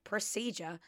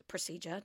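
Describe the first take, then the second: First: Procedure. said firmly with a falling tune; settled pronunciation. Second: Procedure? tried quietly with a questioning rise; unsure pronunciation. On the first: Confirming the word Procedure to viewers, settled fall. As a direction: land Procedure as pRO-see-jer, falling. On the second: Checking her pronunciation of Procedure, unsure and rising. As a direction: test Procedure as pRO-see-jer, rising. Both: Shown as a demonstration. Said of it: "Did I say that right?".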